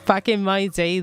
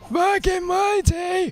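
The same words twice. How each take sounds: First: It is said in the speaker's normal voice. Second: It is said in a put-on old man voice.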